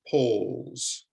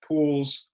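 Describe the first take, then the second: First: Poles drawn out, rising; model word. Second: Pools with a short oo; model word. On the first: Teacher contrasts poles with pools. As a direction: stretch the oh in poles. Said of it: "more elongated than in the first one". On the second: Teacher contrasts pools with poles. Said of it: "the sound is more elongated". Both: Shown as a demonstration.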